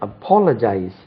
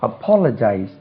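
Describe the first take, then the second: The two takes are said the same way.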